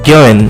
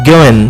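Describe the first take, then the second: No difference in how they are said.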